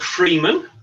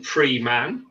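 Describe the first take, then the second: First: Said in the usual way. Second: "free man" said slowly as two full words; two separate words. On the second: Shown as a demonstration. Author explaining his book's title, "free man" as two slow words. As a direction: split "free man" apart, giving "man" its full vowel. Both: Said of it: "as in free man".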